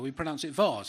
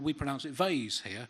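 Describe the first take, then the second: First: Vase is said with a British pronunciation. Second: Vase is said with an American pronunciation. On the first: "No, no, we pronounce it vase"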